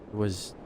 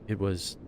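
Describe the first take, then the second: No difference in how they are said.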